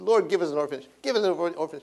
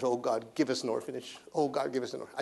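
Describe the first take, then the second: First: Mildly pleading prayer, retold; re-enacted plea, lifting on the repeat; retold begging. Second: Softly re-enacted plea to God; quiet, repeated prayer, retold. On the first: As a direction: beg God, a touch raised. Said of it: "I prayed, I begged". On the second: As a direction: pray it low and soft. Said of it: "I prayed for ten years".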